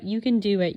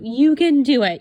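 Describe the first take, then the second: First: Said in the usual way. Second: Loud, high pep shout; cheering. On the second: Retold or imitated. Reading her planner pep note aloud as a loud cheer. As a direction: cheer yourself on. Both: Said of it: "a little nice positive note".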